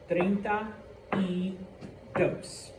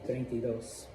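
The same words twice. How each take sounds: First: The three words are said slowly and separately. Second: The three words are run together quickly. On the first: The speaker calls it wrong. "it's actually three separate words. ... nobody says it like that" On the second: The speaker calls it right. "It's treinta y dos"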